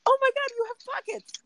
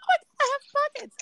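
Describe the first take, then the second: First: Much higher and louder, gushing; goofy excitement. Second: Much higher, fast, squeaky delight; ditzy surprise. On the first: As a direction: gush over it like the best news ever. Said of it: "I want him to be like". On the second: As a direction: gasp it out like you just found treasure. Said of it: "And I'm over here like". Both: Retold or imitated.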